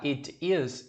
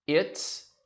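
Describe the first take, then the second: First: The two words are said separately. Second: The two words merge into one syllable. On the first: "em vez de falar it is" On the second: "também posso juntar o som"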